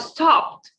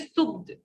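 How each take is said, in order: First: The ending is a short 't' sound. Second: The ending is an extra 'ed' syllable. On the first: The speaker calls it right. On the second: The speaker calls it wrong. "Don't say"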